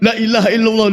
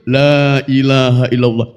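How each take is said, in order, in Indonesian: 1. Vokal pada 'la' dibaca pendek. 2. Vokal pada 'la' dibaca panjang. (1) "la ilaha itu maknanya bukan tidak ada sesembahan yang hak kecuali Allah" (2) "maka yang betul"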